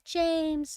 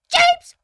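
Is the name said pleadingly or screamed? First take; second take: pleadingly; screamed. First: The name is said softly and pleadingly. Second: The name is screamed out loudly.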